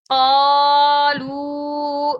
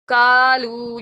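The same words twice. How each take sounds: First: قالو with a full heavy qaaf, drawn out; قالو with a heavy throat q, long aa; correct qaalu. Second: کالو with a light k sound, demo of the mistake; کالو with a thin k, short; wrong kaalu. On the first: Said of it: "ہم پڑھیں گے". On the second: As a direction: say کالو with a plain front k. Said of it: "یہ غلط ہو جائے گا". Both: Shown as a demonstration.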